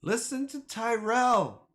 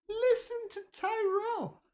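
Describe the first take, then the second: First: Said in the usual way. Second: Much higher, softer put-on voice; mock squeaky voice. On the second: Echoing the chat's advice to viewers, in a squeaky mock voice. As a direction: ham it up like a cartoon fan.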